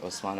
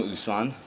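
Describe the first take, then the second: First: "Osman" said with an opening "oh" sound, softer; alternative name pronunciation. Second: "Usman" said with an opening "oo" sound; own-name pronunciation. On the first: Retold or imitated. Echoing how the host pronounced the name, "Osman" with "oh". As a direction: say "Osman" starting on "oh", not "oo". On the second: Shown as a demonstration. Speaker introducing himself to the audience, own pronunciation of "Usman". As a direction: say "Usman" starting on "oo", not "oh". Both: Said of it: "as you so correctly pronounced".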